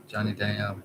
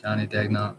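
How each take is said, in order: First: "Johnny Daniel" with the gn softened, French style; French pronunciation. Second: "Johnny Dagnall", anglicized with the g sounded; his own pronunciation. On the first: Trying the French version of his father's surname, says "Daniel" with a silent g. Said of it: "That's not how you say it in French". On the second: Explaining his old man's surname, says "Dagnall" the English way. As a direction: say "Dagnall" with a hard g, DAG-nall. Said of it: "That's how I say it". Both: Shown as a demonstration.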